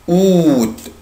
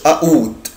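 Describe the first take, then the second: First: The word begins without any A sound. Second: The word begins with a sounded A. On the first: The speaker calls it right. "انا مش بنطق هنا حرف الا" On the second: The speaker calls it wrong. "يعني ما اقولش اوت, ها لا"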